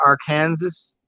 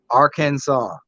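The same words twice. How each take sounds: First: "Arkansas" pronounced like "ar-KAN-zis"; "Arkansas" with Kansas sounded out, final S heard. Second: "Arkansas" ending in "saw"; "Arkansas" pronounced "AR-kan-saw". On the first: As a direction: say "Arkansas" as AR plus the word Kansas. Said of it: "A R then the word Kansas". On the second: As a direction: say "Arkansas" with a silent final S. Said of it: "Nope, Arkansas". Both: Shown as a demonstration.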